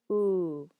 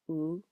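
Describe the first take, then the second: First: The vowel is lengthened. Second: The vowel is short.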